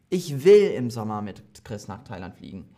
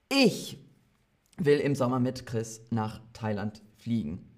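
First: The word "will" carries the main stress. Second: The word "ich" carries the main stress. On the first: Of course I want to fly there. "Hat jemand gesagt, dass ich das nicht will?" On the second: I, and no other person, want to fly there. "die Betonung auf ich"

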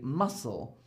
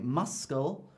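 First: No 'k' sound is said after the 's'. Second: A 'k' sound is said after the 's'. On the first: The speaker calls it right. "I say muscle" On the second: The speaker calls it wrong. "I don't say muscle"

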